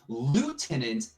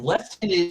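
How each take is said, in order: First: The word is said the American way. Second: The word is said the British way. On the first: "has French origin, which the reason it was adopted in America" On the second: "is is British slash English"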